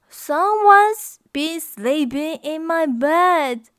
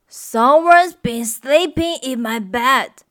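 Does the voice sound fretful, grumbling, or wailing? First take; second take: fretful; grumbling. First: A fretful, worried voice, as Mama Bear. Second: A grumbling voice, as Papa Bear.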